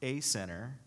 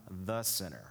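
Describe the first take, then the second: First: "a" said as a long "ay", set apart; the article "a" picked out as "ay"; stress on A. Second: "the" set apart and weighted before sinner; "the" singled out as the one and only; stress on THE. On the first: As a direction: lean on "a", pronounced "ay", before sinner. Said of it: "And it's not". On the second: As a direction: lean firmly on "the", then let sinner drop. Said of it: "He says, "I am the sinner". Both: Shown as a demonstration.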